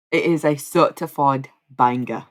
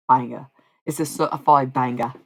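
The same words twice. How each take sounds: First: Mock British accent on certified banger; louder British take on certified banger; more British. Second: Mock Australian accent on banger; louder Australian-tinged certified banger; too Australian. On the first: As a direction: say it again with a London twang. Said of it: "more British". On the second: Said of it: "the first one sounded too Australian". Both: Shown as a demonstration.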